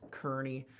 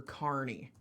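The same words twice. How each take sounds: First: "Kearny" said as KUR-nee; "Kearny" with the ur of fur; settled pronunciation. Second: "Kearny" said as KAR-nee; alternate pronunciation. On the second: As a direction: try "Kearny" with the ar of car. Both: Shown as a demonstration. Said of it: "or Kearny".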